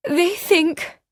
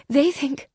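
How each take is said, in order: First: Higher and louder, about to break off; the repeat climbs and snaps off; second halting try. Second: High, breaking start; first halting try. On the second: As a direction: start the thought and falter. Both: A narrator's reading. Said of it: "she broke off".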